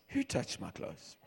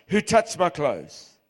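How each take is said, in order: First: "Who touched my clothes?" asked much softer, lower and slow; soft question. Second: "Who" stressed, slow and a bit louder; firm question. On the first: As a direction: ask it gently, almost to himself. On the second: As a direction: ask "Who touched my clothes?" firmly and slowly. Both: Shown as a demonstration. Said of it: "Or maybe he said it like this".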